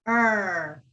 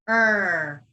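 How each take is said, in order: Both takes have the same delivery.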